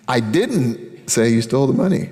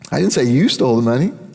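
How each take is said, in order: First: The word didn't carries the main stress. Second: The word you carries the main stress. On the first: The speaker denies having said it at all. "I don't know why you think I did. I didn't" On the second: Someone else stole the money. "He stole the money"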